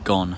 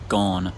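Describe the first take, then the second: First: The vowel is kept short. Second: The vowel is held long. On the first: The speaker calls it wrong. "Saying gone with a short lot vowel just kind of feels wrong to me" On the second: The speaker calls it right. "I personally say gone"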